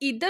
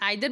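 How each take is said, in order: First: The first vowel sounds like 'ee'. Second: The first vowel sounds like 'eye'. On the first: "इधर और नीदर भी बोला जाता है" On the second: "कुछ लोग इसको प्रोनाउंस करते हैं नाइदर और आइदर"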